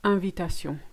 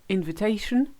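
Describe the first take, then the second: First: Invitation said the French way, nasal in- and -sion, even stress; French pronunciation. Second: Invitation said the English way, stress on the A; English pronunciation. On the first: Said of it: "won't do, put any stress on any part of the word". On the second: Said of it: "You just say". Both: Shown as a demonstration.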